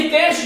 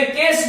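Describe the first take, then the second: First: Said in the usual way. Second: "केस" ending in plain s, not sh; derived form. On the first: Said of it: "ये केश जो शब्द था". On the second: Shown as a demonstration. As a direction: finish "केस" on a dental s. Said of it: "उसको मैंने केस बना दिया".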